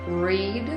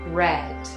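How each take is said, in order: First: The vowel is long, rhyming with need. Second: The vowel is short, rhyming with bed. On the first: It is the present tense. "present simple" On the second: It is the past participle. "past participle"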